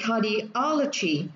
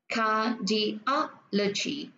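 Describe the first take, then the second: First: Said in the usual way. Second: Cardiology very slow, car-di-OL-o-gy; cardiology drawn out, stressed on OL; stress on third syllable. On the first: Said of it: "chúng ta sẽ đọc là". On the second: Shown as a demonstration. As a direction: sound out cardiology with pauses between syllables. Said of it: "Chẳng hạn như cô sẽ đọc là".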